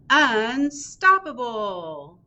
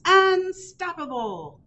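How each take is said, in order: First: Slow, drawn-out "Unstoppable" with a rising end; drawn-out title. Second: High, slow, triumphant "Unstoppable"; triumphant refrain. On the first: Librarian announcing the title, slow and rising. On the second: Librarian reading the refrain, high and triumphant. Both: A narrator's reading.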